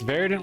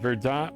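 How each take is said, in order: First: It is said in an American accent. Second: It is said in a French accent. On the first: "like the American version" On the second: "like probably how you pronounce it in French"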